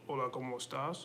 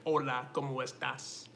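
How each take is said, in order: First: It is spoken flatly with little mouth movement. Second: It is spoken expressively with every sound strongly articulated. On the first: The speaker calls it wrong. "instead of just doing like this" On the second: The speaker calls it right. "I'm able to actually pronounce every letter more strongly"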